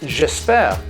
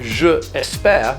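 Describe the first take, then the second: First: The vowel of je is dropped before espère. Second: The word je is said in full before espère. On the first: The speaker calls it right. "you would say j'espère, abbreviated" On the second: The speaker calls it wrong. "you would never say je espère with the two E's together"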